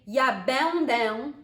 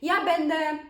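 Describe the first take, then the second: First: The final nasal vowel is fully and strongly pronounced. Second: The final nasal vowel is weak, barely emphasized. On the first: The speaker calls it wrong. "I don't really say ja będę" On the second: The speaker calls it right. "We just say ja będę. You hear how I say it?"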